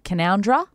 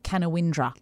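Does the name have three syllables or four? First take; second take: three; four. First: The name is said with three syllables. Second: The name is said with four syllables. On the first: This is how locals say it. The speaker calls it right. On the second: This follows the spelling. The speaker calls it wrong.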